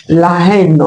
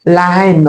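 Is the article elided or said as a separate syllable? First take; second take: separate; separate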